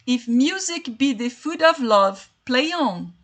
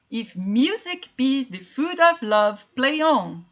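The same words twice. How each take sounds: First: Said in the usual way. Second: Slow, each beat of "If music be the food of love" marked like a drum; rhythmic scansion. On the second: Shown as a demonstration. Teacher scans Shakespeare's verse for students, slow rhythmic beat. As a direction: tap out the iambic pulse, word by word. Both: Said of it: "é a mesma coisa, ó, tibum".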